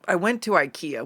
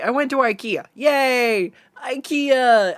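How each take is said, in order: First: Said in the usual way. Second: "I went to ikea" again, higher and louder, gushing; excited restart. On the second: Shown as a demonstration. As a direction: bounce into it like big news. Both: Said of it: "We already went over that part".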